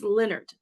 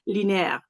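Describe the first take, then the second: First: The name is pronounced the English way. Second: The name is pronounced the French way. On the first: The speaker calls it right. "It's Leonard" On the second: The speaker calls it wrong. "I always tend to say the French pronunciation"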